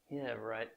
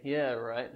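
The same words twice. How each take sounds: First: Low, dry, softer yeah right; sarcastic. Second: Sarcastic. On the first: Teacher demonstrates a sarcastic reply to students. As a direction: drawl it out with heavy sarcasm. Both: Shown as a demonstration. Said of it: "I'm being sarcastic".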